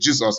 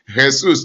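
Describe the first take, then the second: First: The name is said with English sounds. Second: The name is said with Spanish sounds. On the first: "Jesus in English" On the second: "according to their tone"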